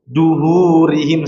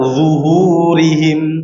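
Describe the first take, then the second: First: The word begins with a hard d sound. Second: The word begins with a soft z-like sound. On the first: The speaker calls it wrong. "Artinya pakai huruf dal. Duhurihim salah ya" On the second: The speaker calls it right. "Coba zuhurihim"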